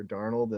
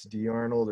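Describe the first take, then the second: First: "Darnold" as one two-syllable word, DAR-nold; "Darnold" run together, no separate Dee; run-together pronunciation. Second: "D Arnold" as two words, Dee then Arnold; "D Arnold" split like an initial and surname; split pronunciation. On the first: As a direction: say "Darnold" with the D joined straight onto arnold. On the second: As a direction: say "D Arnold" with the D as its own syllable. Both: Shown as a demonstration. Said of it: "deal with that pronunciation issue".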